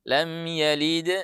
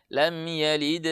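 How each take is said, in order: Both takes have the same delivery.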